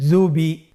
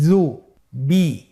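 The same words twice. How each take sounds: First: "Jubi" run together as one word; syllables joined. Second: "জু, বি" slowly as two separate sounds; syllables apart. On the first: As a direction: blend "Jubi" without a break. ("Jubi" একসাথে মিলিয়ে) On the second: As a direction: split "জু, বি" with a clear pause. ("জু, বি" ভেঙে ভেঙে ধীরে) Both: Shown as a demonstration. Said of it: "এভাবেও পড়তে পারেন".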